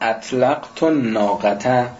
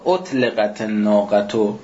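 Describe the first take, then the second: First: The verb is voweled as an active form. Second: The verb is voweled as a passive form. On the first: The subject released the she-camel. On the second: The she-camel was released.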